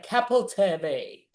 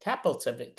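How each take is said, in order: First: Capelteve said slowly, syllable by syllable, falling at the end; careful name try. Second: Capelteve said lower and quicker, clipped at the end; just toss off Capelteve again, softer; quick name retry. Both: Shown as a demonstration. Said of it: "Maybe I'll say it right".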